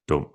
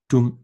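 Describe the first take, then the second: First: The vowel is a lower, open 'aw' sound. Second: The vowel is a high rounded 'oo' sound. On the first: "lowers down to Å" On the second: "The vowel sound U"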